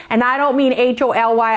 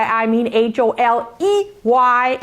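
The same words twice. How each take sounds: First: H O L Y spelled letter by letter. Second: H O L E Y spelled slowly, letter by letter. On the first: Spelling holy for students to contrast with holey. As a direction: spell out H O L Y clearly. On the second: Teacher slowly spelling holey to set it apart from holy. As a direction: spell H O L E Y deliberately. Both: Shown as a demonstration. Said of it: "it's gonna look holy".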